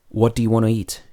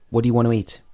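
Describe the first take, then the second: First: Want to is said as two full words. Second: Want to is shortened to wanna. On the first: "Want to" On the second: "becomes wanna"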